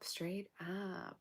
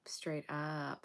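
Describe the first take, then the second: First: Said in the usual way. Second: Hushed whisper, dead serious. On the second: Real, not acted. Reader warning the viewer, urgent whisper. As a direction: breathe it as a warning.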